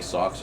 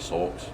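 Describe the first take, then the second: First: The word is said in a plain accent. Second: The word is said in a British-sounding accent. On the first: "you say socks" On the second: "she'll say sulks"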